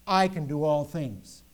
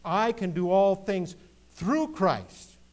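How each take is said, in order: First: Slow, loud "I" leading the line; heavy stress on the word "I"; overemphasized I. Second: Slow, loud, with "through Christ" lifted high; balanced emphasis on THROUGH CHRIST. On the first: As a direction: lean hard on "I" as if it were all about me. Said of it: "don't overemphasize the "I". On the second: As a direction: build to a strong, stretched "through Christ". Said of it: "Christianity is so balanced". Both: Shown as a demonstration.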